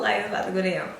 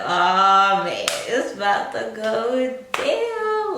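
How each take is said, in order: First: Said in the usual way. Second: Loud drawn-out "Oh, man, it's about to go down"; excited inner thought, drawn out; hyped inner voice. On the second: Retold or imitated. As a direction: stretch "down" slow and loud, hyped. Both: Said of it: "I'm like".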